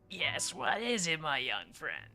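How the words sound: Said in a crotchety, grumpy old man's voice.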